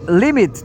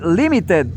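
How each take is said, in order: First: The ending is a bare t sound. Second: The ending is an extra 'id' syllable. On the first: The speaker calls it wrong. "in general, you don't you say t, the t letter" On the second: The speaker calls it right. "but this time you say limited"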